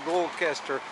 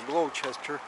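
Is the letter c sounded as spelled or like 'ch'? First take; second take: as spelled; ch. First: The c is sounded as it is spelled. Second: The c is sounded like 'ch'. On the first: The speaker calls it wrong. "она как бы должна читаться Gloucester" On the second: The speaker calls it right. "но читается как Ч"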